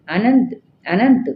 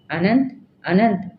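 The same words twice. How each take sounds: First: Louder, higher frightened call; a raised cry for Ananth from a nightmare. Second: Mild narrated call, barely raised; a light, understated call for Ananth. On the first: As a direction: call the name out loud in fear. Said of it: "పెద్దగా కేక పెట్టింది". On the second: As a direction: call the name, held back. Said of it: "గట్టిగా పిలిచింది". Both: A narrator's reading.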